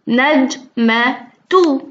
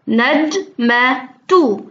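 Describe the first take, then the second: No difference in how they are said.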